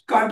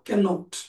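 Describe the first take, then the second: First: It is said shortened to one syllable, can't. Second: It is said in full as can not. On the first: "कांट पण म्हणू शकता" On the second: "कॅन आणि नॉट हे separate नसतात"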